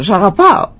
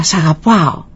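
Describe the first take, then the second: First: Lilting imitated echo; echo coming back. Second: Father's call, barely raised; mild retold shout. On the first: Mountains return the father's loving call, echoing. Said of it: "ξαναγύρισε η φωνή πίσω". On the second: Father calls into the mountains for his son, mild shout. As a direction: call it out lightly to the hills. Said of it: "φώναξε δυνατά".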